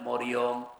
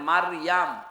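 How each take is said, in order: First: The name is said with o vowels: Moriyom. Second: The name is said with a vowels: Mariyam. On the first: This is how Christians say the name. The speaker calls it wrong. "ওরা বলে মরিয়ম" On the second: This is the form found in the Quran. The speaker calls it right. "পাবেন মারিয়াম"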